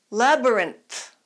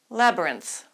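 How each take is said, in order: First: The word is said slowly. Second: The word is said fast.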